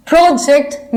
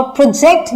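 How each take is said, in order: First: The first project, stressed on PRO, the noun; PRO-ject, punching the start of "project"; first-syllable stress. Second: project with the stress on JECT, the verb; pro-JECT, hitting the end of "project"; second-syllable stress. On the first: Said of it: "first syllable पे stress आएगा". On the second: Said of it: "second syllable पे stress आया". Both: Shown as a demonstration.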